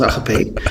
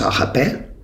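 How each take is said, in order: First: It is pronounced a plain, simplified way. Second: It is pronounced the official ancient Greek way. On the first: "Laten we het gewoon uitspreken als agape" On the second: "Officieel zou je het uit moeten spreken als agape"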